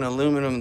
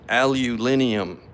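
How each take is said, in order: First: It is said with four syllables, American style. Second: It is said with five syllables, British style. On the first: "I I have a hard time saying aluminum" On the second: "the way uh, my U K across the pond fellas"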